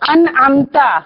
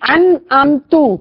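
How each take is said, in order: First: The word ends with an 'a' vowel. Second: The word ends with a 'u' vowel. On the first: You bestowed favor. The speaker calls it right. "ان امتا تو نے انعام کیا" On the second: I bestowed favor. The speaker calls it wrong. "تم میں نے انعام کیا تو شرک ہو گیا"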